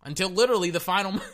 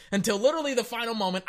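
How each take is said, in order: First: Said in the usual way. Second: Laughing. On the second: Real, not acted. Laughs while restarting the line.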